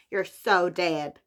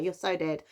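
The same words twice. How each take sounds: First: Slow, drawn-out American accent. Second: Said in the usual way. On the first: Shown as a demonstration. Repeating the book title for fun, in an American accent. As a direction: put on an American accent, stretching it out. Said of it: "say it in that American accent".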